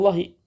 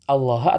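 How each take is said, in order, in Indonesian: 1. Kata itu berakhir dengan vokal i pendek. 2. Kata itu berakhir dengan vokal a pendek.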